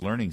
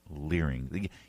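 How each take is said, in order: First: The word has an n sound before -ing. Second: The word has no n sound before -ing. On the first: The speaker calls it wrong. "I think you actually mispronounced it" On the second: The speaker calls it right. "It's a Leering center"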